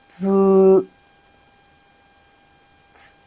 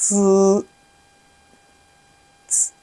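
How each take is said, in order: Both takes have the same delivery.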